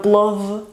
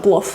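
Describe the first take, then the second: First: "plov" with a long buzzing v at the end; voiced final consonant. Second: "plov" ending in a voiceless f; final devoicing. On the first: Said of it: "No plov". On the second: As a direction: say "plov" as plof. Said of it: "La V se pronuncia F". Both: Shown as a demonstration.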